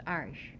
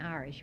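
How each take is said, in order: First: Irish in the homegrown form, a little lower; local pronunciation of Irish. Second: Irish pronounced the standard way, for contrast; rejected pronunciation of Irish. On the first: Telling the interviewer what potatoes were called, Irish in local pronunciation. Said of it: "it was Irish". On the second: Correcting the interviewer on potato names, Irish in the rejected pronunciation. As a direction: say Irish as the form not used. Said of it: "But it wasn't Irish". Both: Shown as a demonstration.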